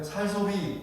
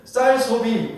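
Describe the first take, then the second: First: "살 소비", softer, with lax s for 쌀; Gyeongsang pronunciation. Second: "쌀 소비" with a hard, tense ss in 쌀; correct tense ss. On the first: Preacher shows how Gyeongsang speakers say it, Gyeongsang lax s. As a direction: Gyeongsang accent that loses the tense ss in "살". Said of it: "이렇게 되잖아요". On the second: Preacher models good pronunciation for Gyeongsang members, tense ss in "쌀". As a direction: stress a crisp double-s on "쌀". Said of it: "얼마나 발음 잘 좋습니까?". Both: Shown as a demonstration.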